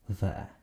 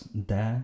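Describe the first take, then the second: First: The word begins with a soft th sound. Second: The word begins with a hard d sound. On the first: "English th, as in the" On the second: "pronouncing it either as de"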